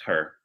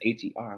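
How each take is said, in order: First: The name is said as one ordinary word. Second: The name is spelled out letter by letter. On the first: "it's her" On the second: "she spelled it out like that"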